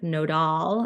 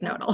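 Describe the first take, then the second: First: The name is pronounced in a fancy, elaborate way. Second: The name is pronounced in a plain, ordinary way. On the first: This is how outsiders say the name. The speaker calls it wrong. "often we hear people calling it like nodal, and I'm like, oh, fancy" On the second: This is how the company itself says the name. The speaker calls it right. "but really we're just like nodal"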